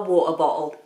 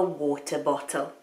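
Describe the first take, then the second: First: The t in the middle of water is dropped. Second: The t in the middle of water is pronounced. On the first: "the people who drop their T's in that way" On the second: "To me"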